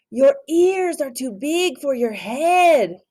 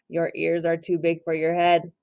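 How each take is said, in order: First: Slow, higher character voice; teasing. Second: Said in the usual way. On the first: Acted. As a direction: tease him about his ears. Reader repeats line plainly after.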